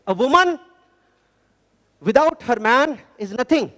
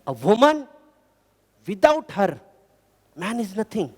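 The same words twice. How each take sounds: First: The pause comes after the word man. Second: The pause comes after the word her.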